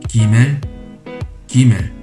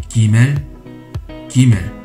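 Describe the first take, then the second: The two takes are said the same way.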